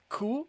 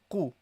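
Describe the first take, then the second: First: The first consonant is a plain front k. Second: The first consonant is a deep throat q. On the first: The speaker calls it wrong. "not ku" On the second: The speaker calls it right. "pronounce the proper qaf"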